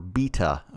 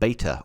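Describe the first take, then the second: First: It is said with a British pronunciation. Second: It is said with a non-British pronunciation.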